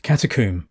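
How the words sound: The last syllable rhymes with tomb. "in England we pronounce it catacomb, rhyming with tomb"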